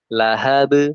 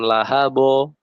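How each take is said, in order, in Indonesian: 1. Huruf b terakhir memantul tipis, ke bunyi e. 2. Huruf b terakhir memantul tebal, ke bunyi o. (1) "Lahab, huruf E" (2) "bukan lahabo. Nah, itu tebal"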